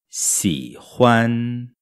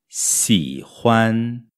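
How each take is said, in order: Both takes have the same delivery.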